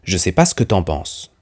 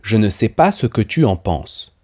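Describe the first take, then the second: First: Words are dropped and merged into a casual reduced form. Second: Every word is pronounced fully, including ne and tu. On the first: This is how it is said in conversation. "dans la conversation, je prononce" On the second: This is the standard form. "En français standard, cette phrase devrait être"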